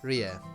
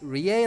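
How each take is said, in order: First: The final vowel is a short uh sound. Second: The final vowel is a full, clear e. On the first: The speaker calls it right. "it's more of an uh sound" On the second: The speaker calls it wrong. "I keep pronouncing the extra E in there"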